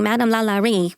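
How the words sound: The name is said with a broad American accent. The speaker calls it wrong. "which probably sounds like Marissa Tomei from My Cousin Vinny"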